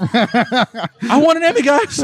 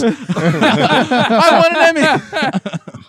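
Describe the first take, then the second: First: Put-on whining like a spoiled kid; whiny spoiled pouty drawl. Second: Long drawn-out laughing whine; whiny spoiled pouty drawl. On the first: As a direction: pout and drag the words out. Pouty plea for an award. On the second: Pretend. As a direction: stretch it out slowly in a whine. Repeats plea, laughing.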